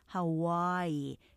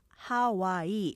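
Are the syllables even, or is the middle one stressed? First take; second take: middle stressed; even. First: The middle syllable is louder and longer. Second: Three even syllables with no clear stress. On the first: The speaker calls it right. "중간을 좀 강하게 좀 길게 늘려서 강조하시면" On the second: The speaker calls it wrong. "우리가 보통 이렇게 삼음절로 하지만"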